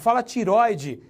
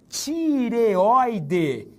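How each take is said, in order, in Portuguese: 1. A palavra tem três sílabas, sem a vogal extra. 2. A palavra tem quatro sílabas, com uma vogal a mais. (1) "Às vezes até médico erra" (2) "Cuidado com a palavra, tireoide"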